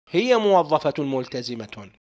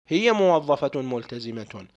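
Both takes have the same delivery.

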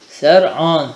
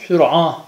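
First: The first vowel is an a sound. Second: The first vowel is a u sound. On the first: "Bi fethissini alel efsah" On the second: "Kesre ve zammesiyle de gelmiş"

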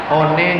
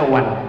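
First: It is read out just as it is spelled. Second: It is said the English way, like 'wan'. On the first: "One dibaca one" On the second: "dibaca one"

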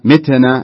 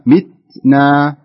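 First: The t is released with an echoing bounce. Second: The t is held softly with breathy air. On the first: The speaker calls it wrong. "فلا نقول متنا متنا، ... لا نجعلها تضطرب حتى تنتقل إلى قلقلة" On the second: The speaker calls it right. "فامسكها شوي، يحبسها كذا في لسانك شوي"

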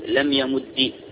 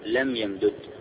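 First: The verb ends with a short i vowel. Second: The two d sounds are split, ending in dud.

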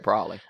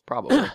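First: It is shortened, with the b sound dropped. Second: All three syllables are said in full. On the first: "but I never say" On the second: "because I say all the syllables"

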